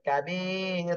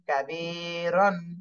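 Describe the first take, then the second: First: The word ends with a long stretched vowel. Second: The word ends with a short vowel and n. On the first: "এভাবে এক আলিফ টেনে পড়তে হবে" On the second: "র আলিফ দুই জবর রন"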